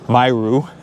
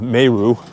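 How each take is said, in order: First: The first syllable sounds like 'my'. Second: The first syllable sounds like 'meh'. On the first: The speaker calls it right. "Got to start saying that right" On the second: The speaker calls it wrong. "People have been saying it's not Meru"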